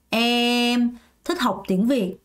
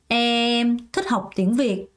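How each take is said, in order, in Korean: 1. 첫 단어 뒤에 끊어지는 곳이 있어요. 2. 첫 단어 뒤에 끊어지는 곳이 있어요.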